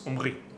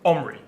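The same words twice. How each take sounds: First: The name is said with a Hebrew pronunciation. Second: The name is said with an English pronunciation. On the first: "In Hebrew, my name sounds" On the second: "English speakers pronounce this name"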